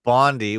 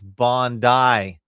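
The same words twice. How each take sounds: First: Bondi is pronounced the North American way. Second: Bondi is pronounced the non-North American way. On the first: The speaker calls it wrong. "North Americans pronounce it Bondi, which is wrong" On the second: The speaker calls it right. "It's Bondi"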